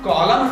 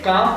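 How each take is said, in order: First: An l sound is heard before the m. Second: No l sound is heard before the m. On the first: The speaker calls it wrong. "कॉलम ना पढ़ के" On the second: The speaker calls it right. "काम पढ़ते हैं"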